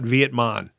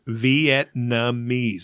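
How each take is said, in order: First: The M sound comes before the N sound. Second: The N sound comes before the M sound. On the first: The speaker calls it wrong. "It's not Vietmon" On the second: The speaker calls it right. "The N comes before the M"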